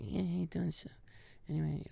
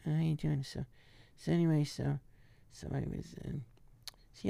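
First: Deadpan Sandler under the breath; barely audible Adam. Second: Much softer, mumbled; deadpan Sandler mumble; barely audible Adam. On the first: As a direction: toss it away almost unheard. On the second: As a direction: throw it away under the breath. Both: Retold or imitated. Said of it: "you can barely hear the guy".

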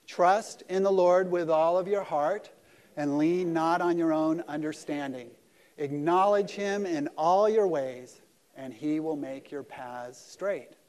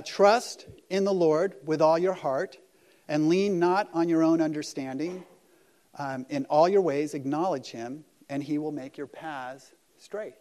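First: Slow, loud congregational recitation, word by word; group recitation. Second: Slow, loud, solemn reading of the verse; scripture reading. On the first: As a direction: lead the room through the verse together, slowly. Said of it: "Let's just say it again". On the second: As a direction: read each word of the verse out carefully and loudly. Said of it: "It says this". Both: Shown as a demonstration.

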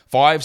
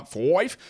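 First: Said in the usual way. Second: FIVE slipping out as a drawn-out Aussie "foive"; broad Australian accent. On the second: Real, not acted. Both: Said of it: "That was my natural Australian accent coming out".

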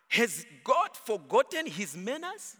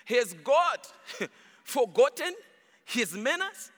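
First: Said in the usual way. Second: Chuckling while repeating the question; laughing through it. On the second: Real, not acted. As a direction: let real laughter break into each word. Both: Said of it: "Oh my".

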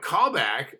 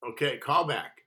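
First: Louder, higher, disbelieving echo of "Call back"; retold incredulity. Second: Said in the usual way. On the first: Actor told of a callback, incredulous.

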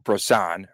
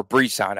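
First: "Brisson" with an oh-like first syllable; "Brisson" with a rounded, reduced first vowel; alternate pronunciation. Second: "Brisson" with a clear ee in the first syllable; "Brisson" opening on a full "bree"; his pronunciation. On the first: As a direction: say "Brisson" as bro-SAHN. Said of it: "keep going back and forth with that". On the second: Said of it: "as he calls him". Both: Shown as a demonstration.

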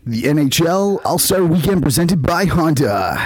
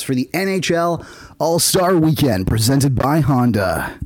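First: Announcer voice. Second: Slow, booming event announcer. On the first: Shown as a demonstration. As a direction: show off your best announcer read. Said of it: "I have skills that you don't know". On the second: Pretend. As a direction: announce it like a big sports event. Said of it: "that was a good announcer voice".

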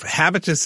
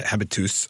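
First: Habitus with a weak, short final "us"; mispronounced habitus. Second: Habitus ending in a clear "toos"; corrected French pronunciation. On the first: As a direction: say habitus English-style, ending in an unstressed "-tus". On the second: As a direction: say habitus French-style, with an "oo" in the last syllable. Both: Real, not acted. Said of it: "my French pronunciation is like my French".

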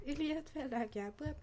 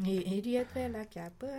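First: Higher and softer, playful repeat; high soft teasing. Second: Said in the usual way. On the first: Acted. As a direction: sing it back up high and soft. Teasing line said twice.

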